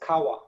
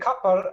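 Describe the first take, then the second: First: The middle consonant is w with open ending. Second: The middle consonant is p and ends in r. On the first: The speaker calls it right. "this will always, always be pronounced as kawa" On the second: The speaker calls it wrong. "it's very tempting to say kapar"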